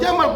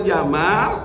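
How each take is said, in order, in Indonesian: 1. Vokal pada suku kata terakhir pendek. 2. Vokal pada suku kata terakhir panjang. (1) "pendek artinya ontak" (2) "artinya tampan"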